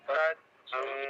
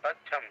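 First: The last syllable is pressed down to low pitch. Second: The last syllable stays at a level pitch. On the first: "క్రిందకు నొక్కండి చెమ్ అన్నది కాబట్టి" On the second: "సామాన్యంగా చదివితే తచ్చం అంటాము"

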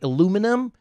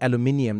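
First: The word is said with four syllables. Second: The word is said with five syllables. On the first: This is how the locals correct the speaker. "Then like, aluminum?" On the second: This is the speaker's own accent. "now I'm saying aluminium"

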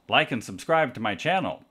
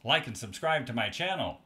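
First: The voice sounds quieter with a changed tone. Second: The voice sounds quietest with the most changed tone. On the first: "this is 90 degrees off axis" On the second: "This is exactly 180 degrees off axis"

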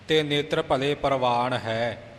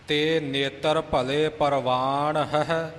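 First: The final word drops one h sound: hai. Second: The final word keeps both h sounds: hahi. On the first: The speaker calls it wrong. "ਆਮ ਉਚਾਰਨ ਇੱਥੇ ਪਾਠੀ ਸਿੰਘ ਹੈ ਹੀ ਕਰ ਜਾਂਦੇ ਨੇ" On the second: The speaker calls it right. "ਹੈ ਹਾਹਾ ਹਾਹੇ ਸਿਹਾਰੀ"

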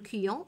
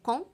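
First: A 'you' glide follows the k sound. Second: The k goes straight into the vowel. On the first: The speaker calls it wrong. "لا نقول كيون" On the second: The speaker calls it right. "نقرأ كون لأن هذا الحرف يكتب ولا ينطق"

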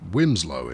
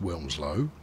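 First: No L sound is heard after the first vowel. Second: An L sound is heard after the first vowel. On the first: This is how the local residents say it. "people who live there will let you know quite quickly that Wimslow is how they prefer to pronounce it" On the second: This is how outsiders expect it to be said. "I know you think it's pronounced Wilmslow"

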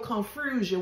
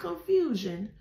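First: The word is said with an added R sound. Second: The word is said with no added R sound. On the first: The speaker calls it right. "I said it with an R" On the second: The speaker calls it wrong. "not confusion"

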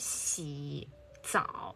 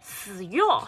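First: It is said in standard Mandarin. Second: It is said in mixed Mandarin-Changzhou.

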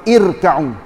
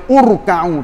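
First: The word begins with an i vowel. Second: The word begins with a u vowel. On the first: The speaker calls it right. "Kalau baca kan irka'u" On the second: The speaker calls it wrong. "Tak boleh baca urka'u"

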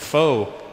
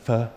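First: The word is read the way it is spelled. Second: The word gets a different, native-style vowel. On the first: The speaker calls it wrong. "let's go get some pho" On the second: The speaker calls it right. "it's actually pronounced pho"

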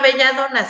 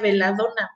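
First: The middle consonant is a 'y' sound. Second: The middle consonant is an 'l' sound. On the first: The speaker calls it wrong. "que no se llama belladona" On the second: The speaker calls it right. "en realidad es que se pronuncia veladona"

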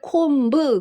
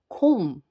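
First: A b sound is pronounced at the end. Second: No b sound is heard at the end. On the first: The speaker calls it wrong. "콤브 그러면 여러분들은 잘못 발음하시는 거예요" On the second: The speaker calls it right. "비 발음 전혀 안 들리게 하셔야 돼요"

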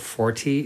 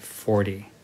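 First: It is said carefully, each sound distinct. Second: It is said casually, with relaxed sounds. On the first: "So 40 is okay" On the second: "but usually we'd say 40"

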